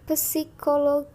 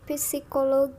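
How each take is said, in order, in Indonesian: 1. Kata itu diucapkan dengan lafal Turki. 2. Kata itu diucapkan dengan lafal Turki.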